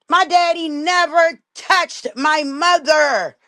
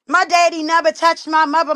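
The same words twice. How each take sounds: First: "My daddy never touched my mother" said slowly, every word weighted; slow emphatic denial. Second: Said in the usual way. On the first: Real, not acted. Daughter insisting to viewers her father never hit her mother, slow and emphatic. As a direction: drag it out word by word to drive it home.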